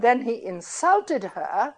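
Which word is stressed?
insulted. The main stress falls on the verb. Calling someone a Republican is not an insult; the insult came afterwards. "calling a Republican need not be an insult"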